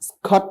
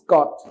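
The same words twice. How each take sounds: First: The k sound has a puff of air. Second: The k sound has no puff of air. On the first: The speaker calls it wrong. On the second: The speaker calls it right.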